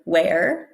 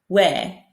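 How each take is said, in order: First: The word ends with an audible R sound. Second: The word ends on the vowel without R. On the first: "instead of saying where" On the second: "they'll say where ... just with the vowel"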